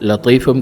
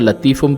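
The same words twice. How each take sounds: First: The t sound is heavy and emphatic. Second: The t sound is light and plain. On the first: The speaker calls it right. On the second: The speaker calls it wrong.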